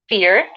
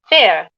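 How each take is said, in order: First: The word is said in an American accent. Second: The word is said in a British accent. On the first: "I'm speaking in the American pronunciation" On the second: "something like this in the British English"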